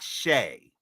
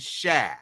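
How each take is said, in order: First: The vowel is an 'ay' sound, as in say. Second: The vowel is an open 'ah' sound. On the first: The speaker calls it wrong. "not Shay" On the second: The speaker calls it right. "you pronounce it Shah and Shah"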